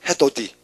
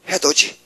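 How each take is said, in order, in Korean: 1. 마지막 음절은 'd' 소리로 시작해요. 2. 마지막 음절은 'j' 소리로 시작해요.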